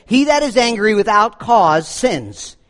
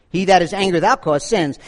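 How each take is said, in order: First: Slow, deliberate reading of the quote; slow quotation. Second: Said in the usual way. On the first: Shown as a demonstration. Pastor quoting John Chrysostom to the congregation, slow and deliberate. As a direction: read the saint's words slowly, weighing each. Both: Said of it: "John Chrysostom said this".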